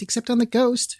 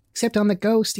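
First: A higher, gleefuller shriek; mild childish shriek, pitched higher. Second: High gleeful shriek, mildly done; a touch of childish shrieking. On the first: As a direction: push the repeat up even higher. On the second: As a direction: squeal it out like playful kids. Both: A narrator's reading. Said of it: "shrieked the twins".

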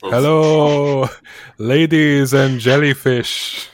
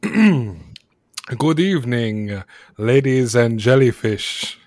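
First: Loud, drawn-out showman's greeting; big hello. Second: Slow, measured showman's opening; stage announcer. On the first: [name] greets the crowd for the carnival, big loud hello. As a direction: belt out a big stage hello. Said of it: "Do you have a big hello". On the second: Ringmaster greets the wealthy patron, lightly performed stage announcing. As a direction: open the show with a drawn-out greeting. Ringmaster formally opens the show. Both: Acted.

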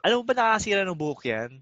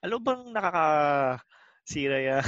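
First: Quick, slightly raised retort imitating the girlfriend; a hint of a nagging girlfriend, rushed; mock angry girlfriend. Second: Slow, sarcastic repeat of "alam mo bang nakakasira yan"; mild mockery, drawn out; mocking echo. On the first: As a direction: fire it off like the scolding girlfriend. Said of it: "sabi niya na". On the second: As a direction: drag it out to ridicule her. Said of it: "Tas iniisip ko naman".

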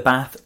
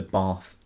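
First: BATH with a short 'a' as in trap; northern Bath. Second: BATH with a long 'ah', unlike trap; southern Bath. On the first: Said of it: "a short A sound". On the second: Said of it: "Bath instead of Bath". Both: Shown as a demonstration.

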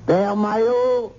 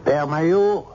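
First: Slow high call. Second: Said in the usual way. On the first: Acted. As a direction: call him across the hall. Calls louder second time. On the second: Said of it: "calls priest twice".

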